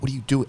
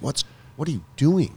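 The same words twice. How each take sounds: First: It is said in a harsh, scolding tone. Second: It is said in a gentle, questioning tone. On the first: The speaker is scolding themself. "With a stern" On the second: The speaker is genuinely asking themself. "Sometimes it's very inquiring"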